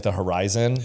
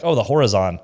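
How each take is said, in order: First: "horizon" said huh-RYE-zun, stress on the middle syllable; correct horizon. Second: "horizon" said HOR-uh-zon, stress on the first syllable; mispronounced horizon. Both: Shown as a demonstration. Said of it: "instead of, like, the horizon".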